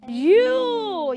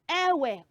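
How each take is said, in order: First: It sounds exactly like the pronoun you. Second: It does not sound like the pronoun you. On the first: The speaker calls it right. "that is the right pronunciation of that word" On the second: The speaker calls it wrong. "So E W E is not ewe or ewu"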